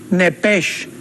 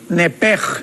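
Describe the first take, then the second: First: The word ends in a soft 'sh' sound. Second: The word ends in a throaty 'j' sound.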